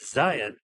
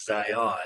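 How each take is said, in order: First: Zion stressed on ZI, weak second syllable; local pronunciation of Zion. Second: Zion with a full open second vowel; outsider pronunciation of Zion. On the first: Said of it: "we put the emphasis". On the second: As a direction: say Zion as zy-AHN. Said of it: "like most outsiders". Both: Shown as a demonstration.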